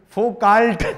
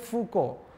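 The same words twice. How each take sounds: First: The name is read out letter by letter. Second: The name is said with French sounds. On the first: "All sane people, particularly Indians, will Foucault" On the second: "So you shall Michel Foucault"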